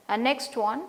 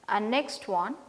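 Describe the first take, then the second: No difference in how they are said.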